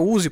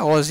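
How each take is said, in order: First: The name starts with a rounded 'oo' vowel. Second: The name starts with an open 'oh' vowel. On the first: The speaker calls it right. "é Uzi" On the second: The speaker calls it wrong. "mas não é Ozzy"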